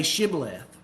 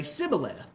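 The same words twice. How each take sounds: First: Shibboleth, opening on a clear sh sound; correct sh sound. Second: Sibboleth, opening on s instead of sh; missing sh sound. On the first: Shown as a demonstration. Preacher showing the Gileadites' test word, sh sound. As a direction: say Shibboleth with the hushing sh at the start. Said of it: "they could not pronounce that sh sound". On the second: Retold or imitated. Preacher imitating Ephraimites failing the test, s for sh. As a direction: say Sibboleth with a plain s at the start. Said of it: "they couldn't pronounce it right".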